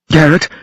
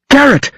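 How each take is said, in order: First: Urgent higher call of Garrett; calling his name. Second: Raging scream. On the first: Woman calls to the fallen Garrett, urgent. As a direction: call Garrett to wake him. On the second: Woman screams at the wounded Garrett, raging. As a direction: shriek Garrett at full pitch. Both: A narrator's reading. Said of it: "She raged at him".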